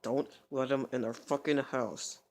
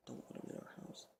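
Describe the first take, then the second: First: Slow, voiced, drawn-out demand; emphatic warning. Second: Hushed, voiceless aside; whisper. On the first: She repeats not to let him in, emphatic. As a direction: spell out the warning with drawn words. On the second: Retold or imitated. She warns against letting him in, whispering. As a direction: whisper it as a secret warning. Quoting her aside about the house.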